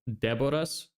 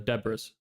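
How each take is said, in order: First: The name is said in its original, non-English way. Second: The name is said in a simplified English way. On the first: This is the name's true pronunciation. "the way you actually pronounce my name" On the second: This is an easier version for English speakers. "usually I just have people pronounce it as"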